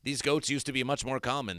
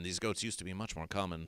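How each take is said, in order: First: Said in the usual way. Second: A quiet mock-mournful echo; hushed repeat. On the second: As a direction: lower and much softer.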